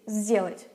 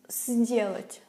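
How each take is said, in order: First: The word begins with a voiced z sound. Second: The word begins with a voiceless s sound. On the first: The speaker calls it right. "No, we say сделать, just because it's easier" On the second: The speaker calls it wrong. "you don't have to put an effort and try to pronounce it as сделать"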